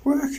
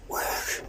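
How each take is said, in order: First: Said in the usual way. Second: Whispered plea. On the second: Real, not acted. Begging lift, whispered.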